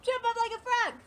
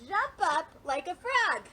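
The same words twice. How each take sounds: First: High, loud, brisk call; excited quick instruction; quick and lively. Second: Said in the usual way. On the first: Shown as a demonstration. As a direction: fire it off with bouncy energy. Repeats the routine faster, livelier.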